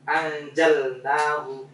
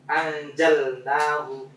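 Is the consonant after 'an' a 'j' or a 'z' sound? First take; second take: j; j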